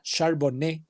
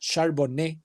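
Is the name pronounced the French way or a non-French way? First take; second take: French; French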